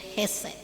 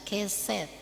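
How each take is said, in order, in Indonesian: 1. Kata ini diawali dengan bunyi h. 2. Kata ini diawali dengan bunyi k. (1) "padahal dia hesed" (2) "kadang-kadang kita membaca keset"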